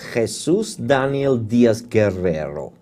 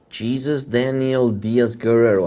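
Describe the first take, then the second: First: The name is said with Mexican Spanish sounds. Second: The name is said with English sounds. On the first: The speaker calls it right. "I'll try to pronounce it exactly like it is happening in Mexico" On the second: The speaker calls it wrong. "I think I'm not uh, pronouncing it correctly"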